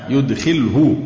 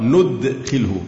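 First: يدخله starting on y, "yudkhilhu"; reading with ya. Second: ندخله starting on n, "nudkhilhu"; reading with nun. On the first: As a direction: begin يدخله with yu-, careful syllables. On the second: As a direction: begin ندخله with nu- instead of yu-. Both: Shown as a demonstration. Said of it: "وفي قراءة ندخله بالنون".

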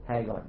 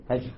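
First: "Hagar" with a hard g sound, HAH-gar; "Hagar" pronounced with a hard g as in go; Egyptian pronunciation. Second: "Hajar" with the g softened to j; Arabic pronunciation. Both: Shown as a demonstration. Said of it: "Different way to pronounce the G".

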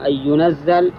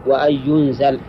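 First: "ينزل" said yunazzal, stressed double z; "ينزل" read yunazzal, tashdid on the z; ينزل with doubled z. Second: "ينزل" said yunzal, light single z; "ينزل" read yunzal, no tashdid. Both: Shown as a demonstration. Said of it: "الفرق بينهما".

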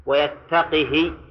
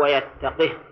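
First: ويتقه said slowly, ending the final ha with a kasra, wayattaqihi. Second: ويتقه ending on a silent, vowelless ha, wayattaqih; final ha with sukun. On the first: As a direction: stretch ويتقه and close on a short i after the ha, -hi. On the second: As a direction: say ويتقه and stop dead on the h with no vowel after it. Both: Shown as a demonstration. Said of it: "بسكون الهاء وكسرها".

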